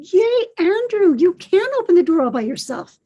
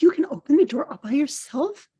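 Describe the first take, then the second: First: High, loud cheer; celebrating. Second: Wondering question, lifted at the end; gentle amazement. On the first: Grammy jumps and claps for her grandson, celebrating. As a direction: cheer a small child's triumph in a higher voice. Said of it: "laughing in celebration". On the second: Grammy checks what her grandson said, mildly amazed. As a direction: echo the child as an impressed question. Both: A narrator's reading.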